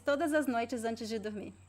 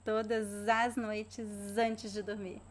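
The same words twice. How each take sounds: First: The word links are smooth and natural. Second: The word links are drawn out and exaggerated. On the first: "so more naturally now" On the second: "I'm exaggerating, of course"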